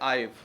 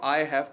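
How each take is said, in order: First: The two words are merged into one. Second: The two words are said separately.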